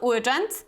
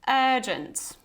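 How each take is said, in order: First: The first vowel is short. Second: The first vowel is long. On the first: The speaker calls it wrong. "it's not urgent" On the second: The speaker calls it right. "you have this long er here"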